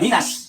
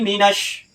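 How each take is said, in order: First: The word ends with a plain s sound. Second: The word ends with an sh sound. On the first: The speaker calls it wrong. "Bukan minas" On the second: The speaker calls it right. "pakai shin kaki tiga"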